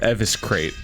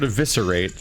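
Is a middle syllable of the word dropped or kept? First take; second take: dropped; kept. First: A middle syllable of the word is dropped. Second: Every syllable of the word is pronounced. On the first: The speaker calls it wrong. "we would call it eviscrate" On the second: The speaker calls it right. "The word eviscerate is a rogue skill"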